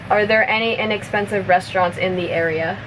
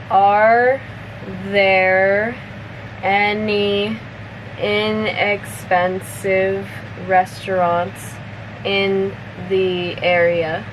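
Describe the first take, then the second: First: The sentence is spoken fast, at natural speed. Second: The sentence is spoken slowly. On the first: "one more time at normal speed" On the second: "I'll say it slowly first"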